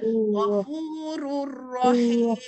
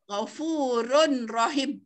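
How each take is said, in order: First: The n merges into the following r sound. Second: The n is sounded clearly before the r. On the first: The speaker calls it right. "dia kena baca ghafurur rahim" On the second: The speaker calls it wrong. "bukan ghafurun. Ghafurun rahim, tak"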